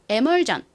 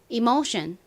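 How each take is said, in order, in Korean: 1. 한국식 발음이며, 'e'로 시작하고 'jeon'으로 끝납니다. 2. 미국식 발음이며, 'ee'로 시작하고 'shun'으로 끝납니다.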